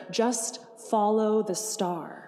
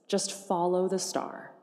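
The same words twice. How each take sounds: First: Just follow the star, each word drawn out slowly; slow, emphatic refrain. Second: Said in the usual way. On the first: Shown as a demonstration. Preacher urging the congregation, slow emphatic refrain. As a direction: lean on "Just" and stretch the line.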